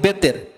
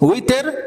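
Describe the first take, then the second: First: The word begins with a b sound. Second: The word begins with a w sound. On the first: This is the everyday simplified form people use. The speaker calls it wrong. "কিন্তু আমরা বলি বেতের" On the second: This is the form of the word in the Quran. The speaker calls it right. "ওয়াও দিয়া উইতের"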